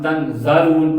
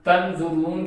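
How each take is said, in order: First: The vowel after z is a. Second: The vowel after z is u. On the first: The speaker calls it wrong. "पढ़ते हैं" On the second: The speaker calls it right. "की जगह पर"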